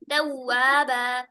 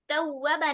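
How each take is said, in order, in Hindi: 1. w के बाद का स्वर लंबा किया जाता है। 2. w के बाद का स्वर छोटा किया जाता है। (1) "वहां पे लंबा करेंगे" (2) "तव्वाबा नहीं"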